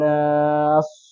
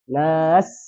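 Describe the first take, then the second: First: The final consonant is a heavy emphatic s. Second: The final consonant is a plain light s. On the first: The speaker calls it wrong. "atau shad" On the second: The speaker calls it right. "jadi harus nas seperti itu"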